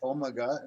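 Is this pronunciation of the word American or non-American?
non-American. It is said with a non-American pronunciation. This is how the other host says it. "listen to you say omega"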